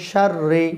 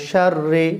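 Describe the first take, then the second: The two takes are said the same way.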